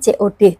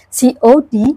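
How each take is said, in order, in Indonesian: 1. Huruf-hurufnya dibaca dengan cara Indonesia. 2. Huruf-hurufnya dibaca dengan cara Inggris. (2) "Kita tidak membacanya"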